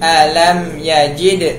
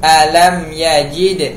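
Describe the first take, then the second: No difference in how they are said.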